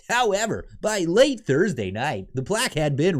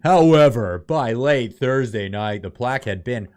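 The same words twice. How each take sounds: First: It is read in a put-on, character voice. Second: It is read in a natural, ordinary voice. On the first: The speaker calls it right. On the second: The speaker calls it wrong.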